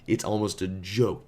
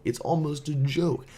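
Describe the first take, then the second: First: Said in the usual way. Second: "joke" lifted higher in amusement; the teller marveling at the fake name, higher and amused; higher amused repeat. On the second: Shown as a demonstration.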